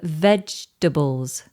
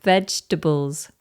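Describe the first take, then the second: First: The second vowel is dropped from the word. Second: The second vowel is dropped from the word.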